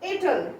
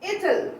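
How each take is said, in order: First: It is said as one contracted word. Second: It is said as one contracted word.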